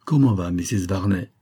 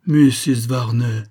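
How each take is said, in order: First: Said in the usual way. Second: Slow, louder cry full of sad reproach; reproachful cry. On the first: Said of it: "répondit le capitaine". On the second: A narrator's reading. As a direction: stretch the name out, wounded and reproachful. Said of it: "s'écria le major avec une tristesse pleine de reproches".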